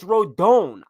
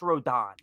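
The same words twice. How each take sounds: First: The stress is on the second syllable. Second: The stress is on the first syllable. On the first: "The accent mark means you go, oh, so it's Rodon" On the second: "take away the accent mark, and then it's Rodon"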